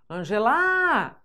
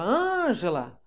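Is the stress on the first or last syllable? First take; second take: last; first. First: The stress is on the last syllable. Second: The stress is on the first syllable. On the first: The speaker calls it wrong. "ela passou para oxítona" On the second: The speaker calls it right. "de proparoxítona"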